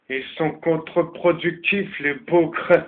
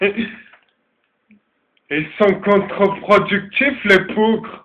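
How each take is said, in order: First: It is said in a plain French accent. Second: It is said in a German accent.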